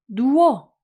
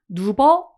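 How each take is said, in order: First: The middle consonant is a w sound. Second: The middle consonant is a b sound. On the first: The speaker calls it right. "누워 이렇게 발음되죠" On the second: The speaker calls it wrong. "누버 이렇게 발음하나요?"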